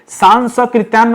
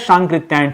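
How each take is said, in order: First: An s sound comes before the k. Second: No s sound comes before the k. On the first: The speaker calls it wrong. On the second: The speaker calls it right.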